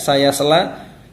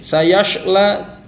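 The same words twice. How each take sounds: First: The s-sound is a plain thin s. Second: The s-sound is a hushing sh. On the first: "jangan sampai terbaca seperti huruf sin" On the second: "Jangan juga seperti huruf shin"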